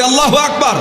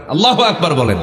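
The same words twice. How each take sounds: First: Higher, louder takbir call. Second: Said in the usual way. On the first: Shown as a demonstration. Preacher urging the crowd to say আল্লাহু আকবার louder. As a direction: lift the crowd with a loud Allahu Akbar. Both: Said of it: "জোরে বলি".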